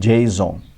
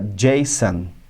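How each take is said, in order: First: The final syllable does not sound like 'son'. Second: The final syllable sounds like 'son'. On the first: The speaker calls it wrong. "e não Jason" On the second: The speaker calls it right. "por causa desse son, você fala Jason"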